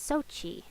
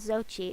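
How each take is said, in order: First: The name begins with an s sound. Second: The name begins with a z sound. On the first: The speaker calls it right. "Sochi is the correct way to say it" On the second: The speaker calls it wrong. "so it's not Zochi"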